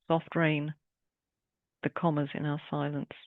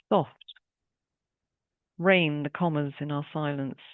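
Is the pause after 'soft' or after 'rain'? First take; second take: after rain; after soft. First: There is a pause right after 'rain'. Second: There is a pause right after 'soft'.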